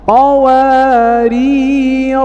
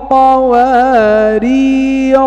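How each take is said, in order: First: The word ends on a stopped final consonant. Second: The word ends on a short vowel, linked onward. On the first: The reader stops on this word. "أما وقفا" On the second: The reader continues without stopping. "نقرأها وصلا"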